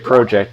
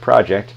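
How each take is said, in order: First: The word is said with a Canadian pronunciation. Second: The word is said with a non-Canadian pronunciation. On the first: "we're Canadian, so I'm going to say project" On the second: "instead of project"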